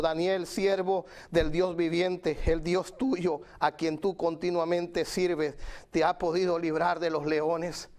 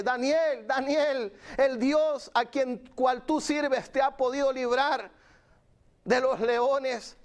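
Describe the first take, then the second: First: Understated sorrowful royal plea; slow, mildly sad reading of the king's question. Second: High, drawn-out call into the pit. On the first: King Darius asks Daniel at the lions' pit, mildly sad. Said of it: "con voz triste y le dijo". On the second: King Darius calls Daniel at the lions' pit, calling out. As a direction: call down slowly to someone far below. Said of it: "hablándole ahí al pozo, diciéndole". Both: Acted.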